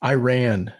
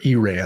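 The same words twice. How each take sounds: First: Iran said as eye-RAN; alternative pronunciation. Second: Iran said as ee-RAHN; alternative pronunciation. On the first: Offering one way to say a country's name, Iran as eye-RAN. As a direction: say Iran with a long 'eye' at the start. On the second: Offering the other way to say a country's name, Iran as ee-RAHN. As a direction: say Iran with 'ee' at the start. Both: Shown as a demonstration. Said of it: "however you wanna pronounce that".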